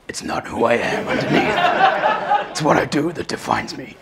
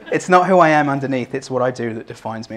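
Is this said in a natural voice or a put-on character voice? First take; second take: put-on; natural. First: It is said in an imitated character voice. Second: It is said in the speaker's own voice.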